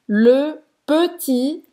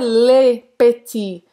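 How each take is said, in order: First: The vowel in 'le' is said with rounded lips. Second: The vowel in 'le' is said with spread lips. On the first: The speaker calls it right. "você vai fazer a boca do O e falar E" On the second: The speaker calls it wrong. "não é le petit"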